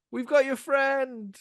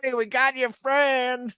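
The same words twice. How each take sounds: First: High, slow call across water; well-meaning mock shout. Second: High, loud, slow mock threat; menacing hillbilly shout. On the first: Rescuers calling to the college kids as really meant, high mock shout. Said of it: "it sounds like this". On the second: Hillbillies as the scared college kids hear them, menacing drawn-out mock holler. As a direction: holler it like a horror-film hillbilly. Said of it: "But to them sounds like".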